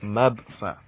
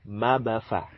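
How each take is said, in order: First: The middle consonant is closed with no vowel after. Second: The middle consonant is released with a short vowel. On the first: This is the ordinary pronunciation outside recitation. "This is Mab Fa" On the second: This is how it is said in Quran recitation. "we'll pronounce it as if the Ba is with Fatha"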